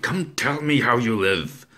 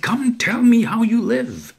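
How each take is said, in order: First: Louder, higher, shouted demand; cried out. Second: Much higher and much louder yell; full shout. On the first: Narrator crying out at the old man. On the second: Narrator shaking the old man, yelling at full force. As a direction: bellow it while shaking him. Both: Acted. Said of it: "I cried".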